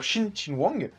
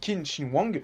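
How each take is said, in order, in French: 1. Le nom commence par un son sh. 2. Le nom commence par un k dur. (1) "le Q chinois se prononce Sh. Donc il faut dire" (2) "on pourrait dire Qin"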